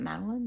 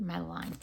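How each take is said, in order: First: "Madeline" ending in an unstressed "lin"; short-ending pronunciation. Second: "Madeline" ending like "line"; long-i pronunciation. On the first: Vlogger weighing up the scent's name, "Madeline" ending like "lun". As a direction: say "Madeline" with a short, weak last vowel. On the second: Vlogger weighing up the scent's name, "Madeline" rhyming with "line". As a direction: say "Madeline" with a long i in the last syllable. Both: Shown as a demonstration. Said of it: "Is it Madeline or Madeline".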